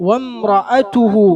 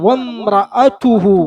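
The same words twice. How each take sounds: Both takes have the same delivery.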